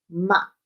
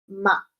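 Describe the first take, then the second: No difference in how they are said.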